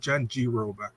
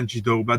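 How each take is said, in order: First: The second name begins with an R sound. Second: The second name begins with a D sound. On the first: The speaker calls it right. "It's Janji Roba" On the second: The speaker calls it wrong. "There is no D"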